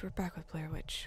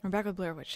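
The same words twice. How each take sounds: First: Breathy whispered repeat of the line. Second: Said in the usual way. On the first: Shown as a demonstration. Streamer whispers the game title to viewers. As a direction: whisper it like a secret. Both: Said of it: "Did I say we're back with Blair Witch?".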